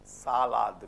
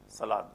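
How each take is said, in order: First: Both vowels are held long in succession. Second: One of the two vowels is shortened. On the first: The speaker calls it right. "But here, salad. We have to make an effort here" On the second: The speaker calls it wrong. "So we have a tendency of saying salad"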